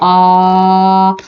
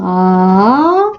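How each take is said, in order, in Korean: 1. 처음부터 끝까지 낮아요. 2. 낮게 시작해서 올라가요. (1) "평성 낮은 소리예요" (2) "상성"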